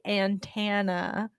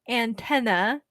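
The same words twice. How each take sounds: First: The middle syllable sounds like 'tahn'. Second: The middle syllable sounds like 'ten'. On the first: The speaker calls it wrong. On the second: The speaker calls it right.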